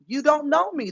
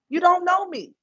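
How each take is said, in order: First: Said in the usual way. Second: Don't pushed high in you don't know me; emphatic retort. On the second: Retold or imitated. Streamer repeating her retort to the critic, don't lifted high. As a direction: lift the don't high and lean on it. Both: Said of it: "And I kept telling her".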